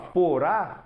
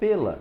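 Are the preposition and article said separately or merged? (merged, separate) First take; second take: separate; merged. First: The preposition and article are said as two words. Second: The preposition and article merge into one word. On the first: "em vez de dizer assim, ó" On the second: "eu falo pela"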